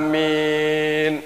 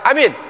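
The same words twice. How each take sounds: First: The first vowel is drawn out long. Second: Both vowels are short. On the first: It means agreeing: yes, so be it. The speaker calls it right. "Kalau alifnya di depan panjang, lalu ketemu dengan ya" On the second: It means make it secure. The speaker calls it wrong. "Kalau alifnya pendek, ... ya-nya enggak panjang"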